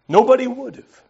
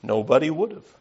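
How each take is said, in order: First: Nobody said much higher and louder with a falling end; emphatic repeat. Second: Said in the usual way. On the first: Shown as a demonstration. Preacher repeats for emphasis to the congregation, stress on Nobody. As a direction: land hard on Nobody to drive it home.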